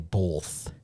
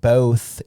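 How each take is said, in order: First: The word is said with an L sound. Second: The word is said without an L sound. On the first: "you're putting an L in the word when you say both" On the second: "saying both, you're putting a W in the word"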